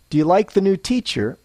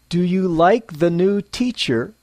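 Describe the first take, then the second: First: Normal pace, with the small words reduced. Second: Slow, with every small word said in full. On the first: The speaker calls it right. "at a normal pace" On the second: The speaker calls it wrong. "slowly, clearly, and less naturally"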